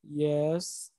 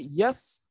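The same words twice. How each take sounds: First: It is said hesitantly and without enthusiasm. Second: It is said instantly and brightly with a rise. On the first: The speaker is married but not happy at all. "that shows your tone that okay, yeah, you are married but you are not happy at all" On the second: The speaker is very happy being married. "that means it's a rising tone, isn't it? And I'm showing that okay, I'm very happy"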